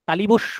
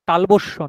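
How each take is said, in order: First: The word is said as talibosso, with added sounds. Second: The word is said as talobosso, with an added s. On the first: "তালিবস্য নয়" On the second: "তালবস্য নয়"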